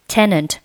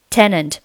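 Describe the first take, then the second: No difference in how they are said.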